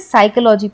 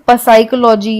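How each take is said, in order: First: The word starts with an s sound. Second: The word starts with a p sound. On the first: The speaker calls it right. "हम इसे साइकोलॉजी पढ़ते हैं" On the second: The speaker calls it wrong. "इसे हम पसाइकोलॉजी या फसाइकोलॉजी नहीं पढ़ेंगे"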